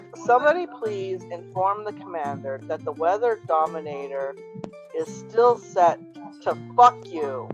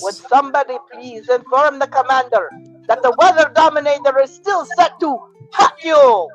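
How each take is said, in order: First: It is said in a normal voice. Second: It is said in a Baroness impression.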